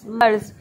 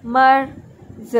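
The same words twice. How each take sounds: First: Said in the usual way. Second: merge very slow, final sound set apart; sounded out in parts. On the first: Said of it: "हम मर्ज अलग कर लेंगे". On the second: Shown as a demonstration. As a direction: stretch merge and detach its ending. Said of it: "ये फिर अलग". (मर्ज को बहुत धीरे, आखिरी ध्वनि अलग करके)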